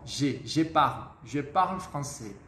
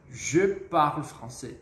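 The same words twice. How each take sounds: First: "je parle français" with the wrong, common student je; wrong je sound. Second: "je parle français" with a rounded je, slow; correct je. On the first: Teacher mimics students' wrong "je parle français". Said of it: "erro comum dos alunos, que é pronunciar o G dessa forma". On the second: Teacher models correct "je parle français" for students. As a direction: say "je" with pursed lips, slowly. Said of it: "isso já faz com que você evite esse erro". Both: Shown as a demonstration.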